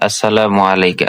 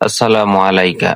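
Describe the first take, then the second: Both takes have the same delivery.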